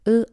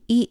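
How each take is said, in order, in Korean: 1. 글자 이름은 'uh' 소리로 읽습니다. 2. 글자 이름은 'ee' 소리로 읽습니다. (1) "프렌치는" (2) "영어는"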